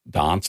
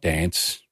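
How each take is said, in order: First: It is said with a Queen's English accent. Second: It is said with a Queensland accent.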